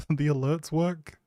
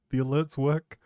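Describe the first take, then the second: No difference in how they are said.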